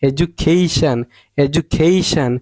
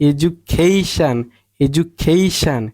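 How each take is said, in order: The two takes are said the same way.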